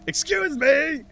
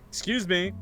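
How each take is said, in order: First: It is said loudly. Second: It is said quietly.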